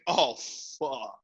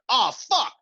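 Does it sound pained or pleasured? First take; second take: pleasured; pained. First: It sounds pleasured, like during sexual pleasure. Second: It sounds pained, like after stubbing a toe.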